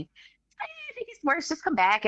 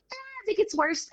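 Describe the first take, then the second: First: Mock the careless doctor; imitating the doctor again. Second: Much higher, softer lazy doctor voice; a careless doctor brushing her off; imitating the doctor. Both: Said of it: "that's how he was talking".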